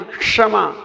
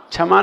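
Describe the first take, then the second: First: क्षमा with the retroflex ष sound; retroflex sha. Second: क्षमा mispronounced as छमा; wrong chha sound. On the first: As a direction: correct क्षमा with hard ष. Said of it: "षटकोण वाला सा बोलना". (षटकोण वाले ष से क्षमा) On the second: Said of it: "क्षमा नहीं". (गलत छमा उच्चारण) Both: Shown as a demonstration.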